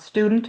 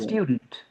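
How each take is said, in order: First: It is said without a y sound before the vowel. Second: It is said with a y sound before the vowel. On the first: The speaker calls it wrong. "It's not student" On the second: The speaker calls it right.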